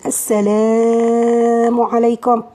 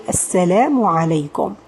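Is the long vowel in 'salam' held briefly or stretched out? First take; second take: stretched out; briefly. First: The long vowel is stretched out much too long. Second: The long vowel is held for only two counts. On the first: The speaker calls it wrong. "I'm not saying Assalamu alaikum. This is not the usual way" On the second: The speaker calls it right. "the natural thing is to say Assalamu alaikum"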